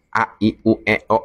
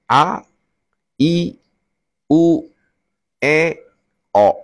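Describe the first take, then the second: First: The vowels are said quickly in a run. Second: The vowels are said slowly and separately. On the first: "lakukan agak cepat" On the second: "dengan mulut terbuka lebar"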